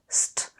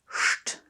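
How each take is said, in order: First: The cluster starts with a plain s sound. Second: The cluster starts with an sh sound. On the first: The speaker calls it wrong. "is not pronounced st as you would in English" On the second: The speaker calls it right. "The S T in Einstein is pronounced st"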